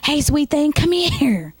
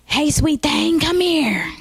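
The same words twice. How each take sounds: First: Put-on higher old man calling again. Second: Higher, lightly voiced old man calling. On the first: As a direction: repeat the call, a bit more insistent. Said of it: "he says it again". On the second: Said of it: "when I do the old man".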